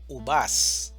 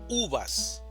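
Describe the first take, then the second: First: The stress is on the second syllable. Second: The stress is on the first syllable. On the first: The speaker calls it wrong. "No decimos uvas" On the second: The speaker calls it right. "decimos uvas"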